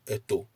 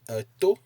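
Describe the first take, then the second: First: The pitch is low on both syllables. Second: The pitch is high on the second syllable. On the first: It means a mother. "If you use no intonation at all" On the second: It means an ear. "you place a high intonation on the O"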